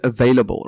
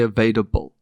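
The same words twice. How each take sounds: First: It is said without any d sound. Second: It is said with an added d sound. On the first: The speaker calls it right. "you just nailed it now" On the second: The speaker calls it wrong. "There's a D in it"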